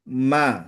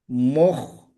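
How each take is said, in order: First: The syllable is light and thin. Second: The syllable is heavy and thick. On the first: The speaker calls it right. "ma istifal tarkik" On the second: The speaker calls it wrong. "Jangan sampai moh"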